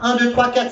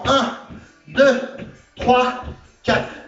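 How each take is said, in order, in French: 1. Les chiffres sont comptés rapidement. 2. Les chiffres sont comptés deux fois plus lentement. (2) "on appuie deux fois plus lentement"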